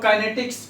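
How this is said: It is pronounced the Indian way. "Indians में हम लोग काइनेटिक्स काइनेमेटिक्स बोल देते हैं"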